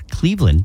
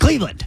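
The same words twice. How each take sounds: First: It is said flatly, as a plain statement. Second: It is said excitedly, with an exclamation.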